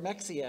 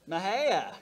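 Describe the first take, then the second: First: It is said the way an outsider would read it. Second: It is said the way local residents pronounce it. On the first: The speaker has never been to the area. "if you've never been around" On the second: The speaker knows the area. "How do we know if someone's been around here?"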